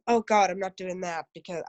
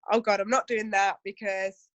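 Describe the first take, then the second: First: Objector's line with an American twang; American accent. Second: Said in the usual way. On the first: Acted. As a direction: slip into a light American accent. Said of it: "put an American accent on". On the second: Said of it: "I don't know why I put an American accent on".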